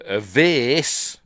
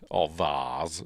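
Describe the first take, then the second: First: "vase" said to rhyme with "face"; American-style vase. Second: "vase" said as "vahz", lower; British vase. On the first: Briton gives the other word for it, "vase" rhyming with face. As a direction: say "vase" with an "ay" vowel, louder. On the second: Briton corrects to the home word, "vase" said as vahz. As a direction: say "vase" with a long "ah". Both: Shown as a demonstration. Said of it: "as we call it".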